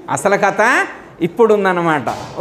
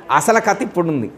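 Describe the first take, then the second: First: కథ stressed, whole line slowed; slow emphasis. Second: Said in the usual way. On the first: Shown as a demonstration. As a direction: lean on కథ, drawing the line out. (కథ పై ఒత్తిడితో నెమ్మదిగా)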